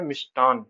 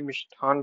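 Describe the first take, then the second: First: मिष्टान with an unaspirated ट; corrected pronunciation. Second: मिष्ठान with an aspirated ठ; common misspelt form. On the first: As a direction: say मिष्टान, no puff on ट. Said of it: "सही क्या है?". (मिष्टान, ट अल्पप्राण के साथ) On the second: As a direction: say मिष्ठान with a puff on ठ. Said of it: "लिखते हैं, पर सही क्या है?". (मिष्ठान, ठ महाप्राण के साथ) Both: Shown as a demonstration.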